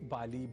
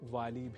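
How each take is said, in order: First: The name begins with a b sound. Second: The name begins with a v sound. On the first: "वाली भी और बाली भी दोनों ही प्रयोग" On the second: "वाली भी और बाली भी दोनों ही प्रयोग"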